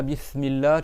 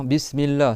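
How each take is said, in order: First: BISMILLAH lisped as "Bithmillah"; don't let the s in Bismillah hiss; S not whistled. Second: BISMILLAH with a sharp hissing French s; whistled S. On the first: Teacher repeats the faulty S, lisped. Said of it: "tu fais pas siffler ton S". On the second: Teacher models the valid S, sibilant and clear. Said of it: "il siffle comme en français". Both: Shown as a demonstration.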